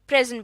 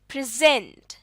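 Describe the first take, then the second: First: The stress is on the first syllable. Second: The stress is on the second syllable. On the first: "पहले हिस्से पर हम जोर देकर present बोलेंगे" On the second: "दूसरे हिस्से पर स्ट्रेस देकर बोलेंगे तो ये बन जाएगा"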